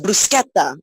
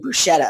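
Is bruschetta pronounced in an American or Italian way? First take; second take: Italian; American. First: The word is pronounced the Italian way. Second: The word is pronounced the American way. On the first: The speaker calls it right. "oh no, it's bruschetta" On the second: The speaker calls it wrong. "in America they say bruschetta"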